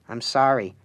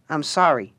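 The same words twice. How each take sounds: First: Said in the usual way. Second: A touch of meek apology; humble apology. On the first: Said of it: "he repeated". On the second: Acted. The Harlequin apologizing to Alice, lightly humble. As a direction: say it small, head bowed. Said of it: "said the Harlequin humbly".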